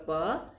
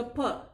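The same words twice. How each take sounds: First: प unaspirated, without a puff; Hindi pronunciation. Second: प with a puff of air, "pha"; English pronunciation. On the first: Teacher contrasting languages, Hindi sound. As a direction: say प as a pure Hindi "paa". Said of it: "Hindi का प". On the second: Teacher contrasting languages, English sound. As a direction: aspirate प slightly. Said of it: "English का प". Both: Shown as a demonstration.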